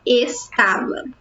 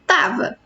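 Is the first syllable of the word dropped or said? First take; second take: said; dropped. First: The word is said in full, three syllables. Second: The word's first syllable is cut off.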